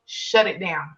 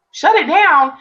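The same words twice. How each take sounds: First: A low, softer, firm Shut it down; calm command. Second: A higher, louder, disbelieving Shut it down?; incredulous question. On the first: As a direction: speak as a calm inner voice. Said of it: "I hear clearly". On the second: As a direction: echo the order in shock. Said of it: "And I'm like". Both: Retold or imitated.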